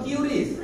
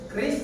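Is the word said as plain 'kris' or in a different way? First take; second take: different; kris. First: The word is not said as plain 'kris'. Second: The word is said simply as 'kris'. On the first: The speaker calls it wrong. "Yang baca Qris salah" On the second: The speaker calls it right. "Yang benar adalah Kris"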